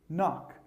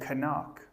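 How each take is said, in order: First: The k at the start is silent. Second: The k at the start is pronounced. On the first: The speaker calls it right. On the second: The speaker calls it wrong. "Don't say"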